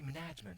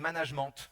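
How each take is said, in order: First: It is said with a fully English pronunciation. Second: It is said with mixed French and English sounds. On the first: The speaker calls it wrong. "on ne dit pas non plus management. ... On n'est pas totalement anglo-saxon" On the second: The speaker calls it right. "On dit management. On garde la dentale anglaise. ... un petit peu d'anglais, ... un petit peu de français"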